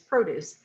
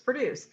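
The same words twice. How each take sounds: First: The stress is on the first syllable. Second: The stress is on the second syllable. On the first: It is used as a noun. "I know it's a noun and it's produce" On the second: It is used as a verb. "I know it's a verb, so it's produce"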